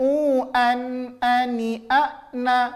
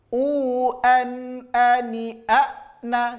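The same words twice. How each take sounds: First: The glottal stops leak through the nose. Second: The glottal stops are clear, not through the nose. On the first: The speaker calls it wrong. "Jangan nggak boleh masuk ke hidung" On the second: The speaker calls it right. "jelas hamzahnya"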